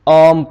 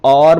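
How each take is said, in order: First: The r is silent after the vowel. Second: The r is clearly pronounced after the vowel. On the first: The speaker calls it right. "आर silent हो जाएगा" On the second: The speaker calls it wrong. "इसे हम आर्म नहीं पढ़ेंगे"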